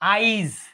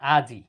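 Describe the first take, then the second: First: The i vowel comes before the j sound. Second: The i vowel comes after the j sound. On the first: "এটা উচ্চারিত হয় কি হয় দেখেন তো আইজ" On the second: "আজি দেখেন আজি"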